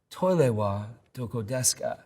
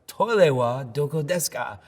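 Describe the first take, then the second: First: It is said at normal volume. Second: It is said louder, more forcefully.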